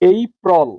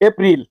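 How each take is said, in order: First: The first vowel glides from e to ee. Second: The first vowel is a plain, steady e. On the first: The speaker calls it right. "এর সঠিক উচ্চারণ হবে এই প্রল।" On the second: The speaker calls it wrong. "এটাও ভুল পড়েছি।"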